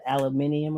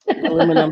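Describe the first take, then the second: First: It is said with five syllables. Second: It is said with four syllables. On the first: The speaker calls it wrong. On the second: The speaker calls it right.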